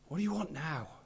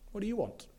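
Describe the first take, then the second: First: It is said in a frustrated way. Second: It is said like a shopkeeper would.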